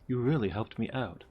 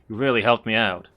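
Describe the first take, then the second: First: It is said in the speaker's normal voice. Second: It is said in Chief Surhoff's put-on voice.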